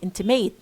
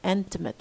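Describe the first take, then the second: First: The last syllable has a full vowel. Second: The last syllable has a reduced schwa vowel. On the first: The speaker calls it wrong. "Strong pronunciation would have A in the example intimate. Most many of you would say intimate" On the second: The speaker calls it right. "No, intimate"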